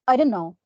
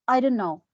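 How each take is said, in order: No difference in how they are said.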